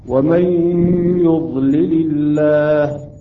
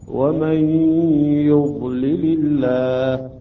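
The two takes are said the same way.

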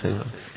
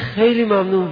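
First: The thanks is said in a meek, abject tone. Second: The thanks is said in a proud, haughty tone. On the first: The speaker thanks while feeling dependent and lowly. The speaker calls it right. "تشکر ذلیلانه" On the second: The speaker thanks while feeling above the other person. The speaker calls it wrong. "تشکر بود کبرانه رو ببین"

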